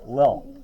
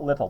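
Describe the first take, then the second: First: The word is said with no t sound. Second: The word is said with a clear t sound. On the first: The speaker calls it right. "there's no t's" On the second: The speaker calls it wrong. "It's not little"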